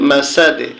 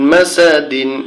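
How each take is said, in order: First: The word ends without an n sound. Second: The word ends with an n sound. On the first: This is the form when stopping on the word. "এখানে অক্ফগুল উচ্চারণটা হবে মাসাদে" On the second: This is the form when reading on without stopping. "দাল দুই জের দিন মাসা দিন"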